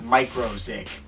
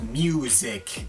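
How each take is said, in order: First: It is said as micro plus zik. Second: It is said like the word music. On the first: The speaker calls it wrong. "not microzik, but I use the latter pronunciation to avoid confusion" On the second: The speaker calls it right. "I know it's actually pronounced music"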